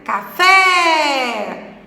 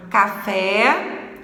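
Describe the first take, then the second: First: "café" with FÉ raised, loud and drawn out; exaggerated final stress. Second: "café" with the stress on a lengthened FÉ; stress on final syllable. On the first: Teacher showing the tonic syllable, "café" with long, strong FÉ. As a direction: stretch and swell the fé of "café". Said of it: "o fé é a sílaba tônica". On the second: Teacher repeating for the class, "café" stressed on its last syllable. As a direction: say "café" evenly, leaning on fé. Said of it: "Vamos falar três vezes a palavra". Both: Shown as a demonstration.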